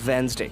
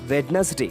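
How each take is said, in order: First: The D after the first vowel is silent. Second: The D after the first vowel is sounded. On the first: The speaker calls it right. "So W E N Z D A Y" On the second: The speaker calls it wrong. "we mispronounce it like Wednesday"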